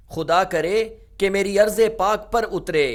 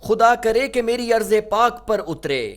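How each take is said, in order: Both takes have the same delivery.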